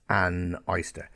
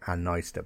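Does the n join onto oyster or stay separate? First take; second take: separate; joined. First: The n stays apart from oyster. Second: The n runs straight into oyster. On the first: "but it's an oyster" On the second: "it sounds like an oyster"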